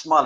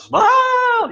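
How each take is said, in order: First: Said in the usual way. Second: Exaggerated SMILE. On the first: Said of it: "it's smile". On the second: Shown as a demonstration. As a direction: SMILE shouted high, loud and stretched. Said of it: "it's not just smile".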